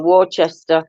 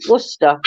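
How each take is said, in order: First: Worcester said as wor-chester, letter by letter; spelling pronunciation. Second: Worcester said short as WUSS-ter; correct pronunciation. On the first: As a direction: sound out Worcester as WOR-CHES-TER. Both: Shown as a demonstration. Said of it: "W O R C E S T E R".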